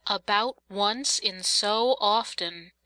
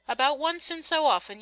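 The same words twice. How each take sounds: First: "About once in so often" drawn out word by word; "About once in so often" slowly, with "so" stretched out; slow pondering echo. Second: Said in the usual way. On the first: A narrator's reading. Narrator ponders the mother's vague phrase.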